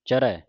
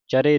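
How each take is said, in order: First: The final vowel is heavy, an 'ai' sound. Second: The final vowel is light, an 'e' sound. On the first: The speaker calls it right. "ਇੱਥੇ ਹਲੰਤ ਲਾ ਕੇ ਭਾਰਾ ਕਰਕੇ ਬੋਲਣਾ ਹੈ" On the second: The speaker calls it wrong. "ਚਰੇ ਨਹੀਂ ਪੜਨਾ"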